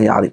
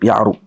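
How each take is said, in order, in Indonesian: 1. Suku kata terakhir bervokal 'i'. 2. Suku kata terakhir bervokal 'u'.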